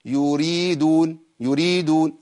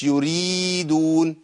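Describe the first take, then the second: First: يريدون with ii clipped; wrong short madd. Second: يريدون with ii dragged too long; wrong overlong madd. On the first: Teacher demonstrating a too short ya mistake. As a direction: cut يريدون vowels short. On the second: Teacher showing a wrong overlong ya. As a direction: overstretch يريدون. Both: Shown as a demonstration. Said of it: "ما ينفعش".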